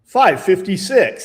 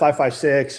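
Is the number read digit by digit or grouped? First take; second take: grouped; digit by digit. First: The number is read as five and fifty-six. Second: The number is read as single separate digits. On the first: The speaker calls it wrong. "they'd be like" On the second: The speaker calls it right. "instead of"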